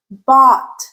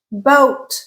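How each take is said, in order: First: Bought said with an open, rounded aw vowel; aw vowel demo. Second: Boat said with a rounded, tense oh gliding toward oo; long O demo. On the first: Teacher contrasting the aw of Bought with boat. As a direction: open the mouth wide, lips slightly rounded, on Bought. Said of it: "Ah, rounded, tense". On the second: Teacher modelling the rounded oh in Boat. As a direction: round the lips firmly on Boat. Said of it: "Oh, rounded, tense". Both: Shown as a demonstration.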